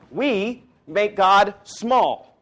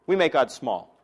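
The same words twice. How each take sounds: First: Each word drawn out, high and loud, weight on God; slow it right down and land hard on God; We make God small, stretched and forceful; slow emphatic. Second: Said in the usual way. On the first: Shown as a demonstration. Repeats the line for emphasis.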